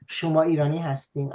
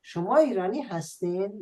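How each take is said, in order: First: Said in the usual way. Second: Quick Shirazi-tinged question, higher and rising at the end; lilting southern Persian question; southern Persian accent. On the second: Shown as a demonstration. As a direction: ask it with a hint of Shirazi accent. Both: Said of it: "we can also say that without the accent".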